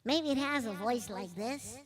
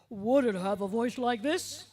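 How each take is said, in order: First: It is said in a small, tiny voice. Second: It is said in a deep, hippo-like voice.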